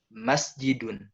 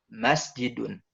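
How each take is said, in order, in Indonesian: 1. Tekanannya di suku kata pertama. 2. Tekanannya di suku kata pertama.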